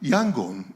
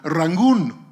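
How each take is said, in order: First: The name begins with a Y sound. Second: The name begins with an R sound. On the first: This is the standard Burmese form. "Burmese would pronounce it Yangon" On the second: This is the archaic Arakanese form. "the interpreters, Malka, said, Rangoon"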